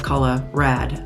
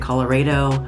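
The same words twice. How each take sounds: First: The 'ra' syllable has the vowel of 'rad'. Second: The 'ra' syllable has a vowel unlike 'rad'. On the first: The speaker calls it right. "like we're rad" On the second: The speaker calls it wrong. "some people will say Colorado"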